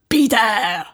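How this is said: It is said in a creepy vampire voice.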